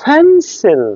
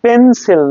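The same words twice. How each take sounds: First: ফেন্সিল high, with a strong opening puff; aspirated P. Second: পেন্সিল with a plain P, no puff; higher পেন্সিল, first sound breathless; unaspirated P. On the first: Teacher correcting pencil for students, aspirated ফেন্সিল. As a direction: punch the breathy P of ফেন্সিল, pitch up. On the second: Teacher showing the wrong take, unaspirated পেন্সিল. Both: Shown as a demonstration. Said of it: "পেন্সিল না".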